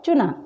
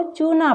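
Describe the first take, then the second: First: "चुना" with a brief, light u; short u. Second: "चूना" with a long, weighted oo. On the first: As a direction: put no weight on the u of "चुना". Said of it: "कम वज़न दिया जा रहा है". ("चुना" में छोटा उ) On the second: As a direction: stretch the first vowel of "चूना". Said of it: "ना तो हम इसको चूना पढ़ रहे". ("चूना" में बड़ा ऊ) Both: Shown as a demonstration.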